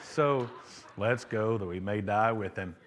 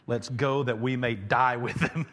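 First: It is said in a gloomy Eeyore voice. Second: It is said in his normal reading voice.

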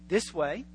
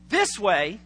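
First: It is said hesitantly, with little certainty. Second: It is said firmly, with clear confidence. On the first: The person is not sure of the direction. "Not too sure" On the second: The person knows which way to go. "they have a sense of direction"

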